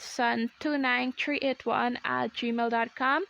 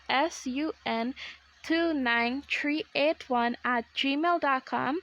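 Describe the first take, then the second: First: It is said at normal speed. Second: It is said slowly.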